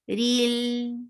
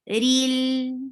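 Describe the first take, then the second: No difference in how they are said.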